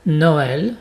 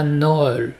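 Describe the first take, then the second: First: Noël in two syllables, "no-èl"; vowels separated. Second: Noël mispronounced as one syllable, "nol"; wrong merged vowels. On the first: Teacher shows what tréma does, Noël in two syllables. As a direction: split Noël into o plus open è. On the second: Teacher shows the mistake to avoid, Noël as nol. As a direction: run Noël together into a single nol. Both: Shown as a demonstration. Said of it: "et pas Noël".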